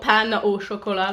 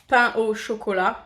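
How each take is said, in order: First: The words get an anglicized, non-French pronunciation. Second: The words get a native French pronunciation. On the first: The speaker calls it wrong. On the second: The speaker calls it right.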